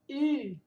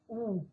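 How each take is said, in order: First: The vowel is said the Norwegian way. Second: The vowel is said the Portuguese way. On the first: The speaker calls it right. "o U no norueguês é U" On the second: The speaker calls it wrong. "não é U"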